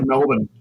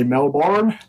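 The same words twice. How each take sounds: First: "Melbourne" as MEL-bun, second syllable reduced, no R; Australian pronunciation. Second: "Melbourne" said American-style, second syllable a full "born" with the R; American pronunciation. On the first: Shown as a demonstration. Australian guest showing the hosts the local way, Australian pronunciation of "Melbourne" as MEL-b'n. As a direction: say "Melbourne" the local way, short weak "b'n" ending. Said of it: "We just say Melbourne".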